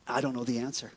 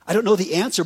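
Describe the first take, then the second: First: Much softer, almost under the breath; quiet admission. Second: Said in the usual way. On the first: Real, not acted. Pastor admitting to Steve, softly. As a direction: confess it quietly to yourself. Answers own question softly.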